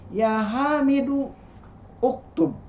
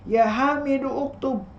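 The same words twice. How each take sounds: First: A pause comes before uktub, its first vowel kept. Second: Joined without pause, the first vowel of uktub kept. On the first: "Kalau dibacanya dijeda begini" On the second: "Tapi kalau sekaligus tidak boleh begini"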